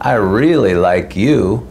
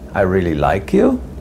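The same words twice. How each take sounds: First: It is said sarcastically, with a mocking tone. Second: It is said questioningly, like an uncertain question. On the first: The speaker does not like the listener. "which is sort of a sarcastic way of saying" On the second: The speaker is unsure about liking the listener. "which is sort of a question"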